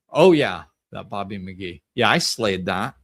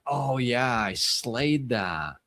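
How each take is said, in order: First: Loud, smug "Oh yeah" then a boastful brag; cocky bragging, punching the opening; egotistical. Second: Genuine pride, said gently and slowly; sincere self-love. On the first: Shown as a demonstration. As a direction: show off, as if better than everyone. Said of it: "in an egotistical way". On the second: Retold or imitated. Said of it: "pure self-love because she did slay it".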